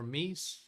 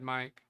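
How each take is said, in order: First: The word ends with a soft s sound. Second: The word ends with a hard k sound. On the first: "it could be a soft C" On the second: "depending on how you prefer to pronounce it"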